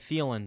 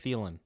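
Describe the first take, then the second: First: The name is said with an added d sound. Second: The name is said without any d sound. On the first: The speaker calls it wrong. "Why do you randomly add the D? You say Thielen" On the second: The speaker calls it right. "instead of Thielen"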